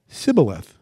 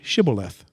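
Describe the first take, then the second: First: The word begins with an s sound. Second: The word begins with an sh sound. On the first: The speaker belongs to that group. The speaker calls it wrong. "It would come out s" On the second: The speaker is not from that group. The speaker calls it right. "They couldn't pronounce that sh"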